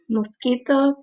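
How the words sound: It is said with a Spanish accent. "So I said that with a Spanish accent"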